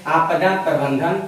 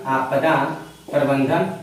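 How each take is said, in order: First: Said in the usual way. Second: Dictating slowly. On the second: Shown as a demonstration. Teacher dictates term for notes.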